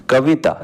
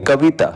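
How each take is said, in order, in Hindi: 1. बीच का स्वर छोटा और जल्दी बोला जाता है। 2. बीच का स्वर छोटा और जल्दी बोला जाता है।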